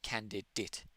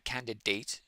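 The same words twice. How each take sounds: First: The final vowel is reduced and lazy. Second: The final vowel is full and clear. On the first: The speaker calls it right. "it's more candidate" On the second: The speaker calls it wrong. "It's not really candidate"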